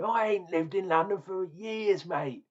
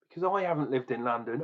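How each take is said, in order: First: Higher, hammed-up Cockney accent; mock Cockney. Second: Said in the usual way. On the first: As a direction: play the cheeky London geezer in Cockney. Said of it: "am I gonna be talking like this".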